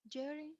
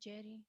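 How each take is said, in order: First: The pitch rises at the end. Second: The pitch falls at the end. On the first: The speaker hopes for a response. "I'm using rising intonation" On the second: The speaker demands a response right now. "It's mostly fallen intonation like a statement"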